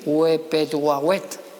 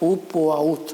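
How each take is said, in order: First: Extra e vowels are inserted between the consonants. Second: No extra e vowels are inserted between consonants. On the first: "o también se puede decir Uepetuahuet, porque cuando no se sabe qué consonante había se pone una E" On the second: "yo prefiero pronunciar Upuaut"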